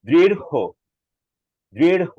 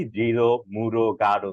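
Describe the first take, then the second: First: দৃঢ় said drirh-ho, loud, with a puff of breath; high, forceful দৃঢ় ending in a breathed ho; aspirated ending. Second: দৃঢ়, মূঢ়, গাঢ় with no breath on the final sound; everyday breathless endings on দৃঢ়, মূঢ়, গাঢ়; common pronunciation. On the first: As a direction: push the air out on the end of দৃঢ়. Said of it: "এটা বাতাসটা এভাবে বের হবে". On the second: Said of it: "আমরা সাধারণত উচ্চারণ করি". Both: Shown as a demonstration.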